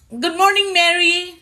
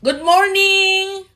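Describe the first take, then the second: First: Said in the usual way. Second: Higher, louder, slow drawn-out good morning; sing-song greeting. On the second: Real, not acted. Host greeting Mary on the live, slow and sing-song. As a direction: stretch the morning out sweetly.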